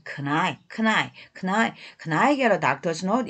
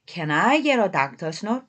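First: "Can I" linked as "keun-ai"; reduced "can". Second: Said in the usual way. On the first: Shown as a demonstration. Teacher drills learners on the quick spoken form, reduced "can". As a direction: repeat "Can I" with "Can" weakened to "keun". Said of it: "can이 큰 으로도 발음할 수 있어요". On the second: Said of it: "한 번 더요".

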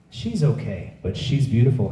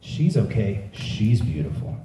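First: "She's okay" flat, "beautiful" lifted; weighing looks. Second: "beautiful" said slower and softer, in awe; slow realization. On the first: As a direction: stress on "okay" then "beautiful". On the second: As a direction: linger on "She's beautiful". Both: Retold or imitated. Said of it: "I was like".

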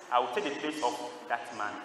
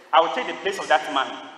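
First: Softer, lower restatement; retold quiet offer. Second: Firm, projected declaration; retold bold offer. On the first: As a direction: imitate a volunteer offering himself quietly and solemnly. Same offer repeated, retold softly. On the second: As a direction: speak up as the volunteer stepping in. Volunteer speaks up suddenly, retold.

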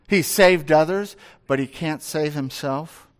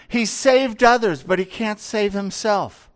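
First: Said in the usual way. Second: Higher, sneering taunt; mocking. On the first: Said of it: "they now affirm". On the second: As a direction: jeer at him as the leaders did. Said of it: "they make fun of him".

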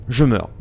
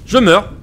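First: Said in the usual way. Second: High, loud cry of defeat; loud despairing wail; loud dying cry. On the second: Real, not acted. Dying in game.

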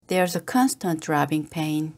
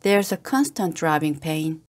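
Both takes have the same delivery.

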